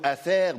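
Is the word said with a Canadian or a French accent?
French. It is said with a standard French accent. "Le mot"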